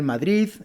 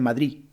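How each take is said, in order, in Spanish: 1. La palabra termina en un sonido D suave. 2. La D final desaparece por completo. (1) "Estas en realidad deben ser Madrid" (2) "Muchas personas dicen Madrid"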